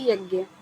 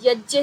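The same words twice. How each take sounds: First: It ends with a 'gya' sound. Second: It ends with a 'jya' sound. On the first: The speaker calls it wrong. "ना कि यज्ञ" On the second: The speaker calls it right. "जैसे यज्ञ है"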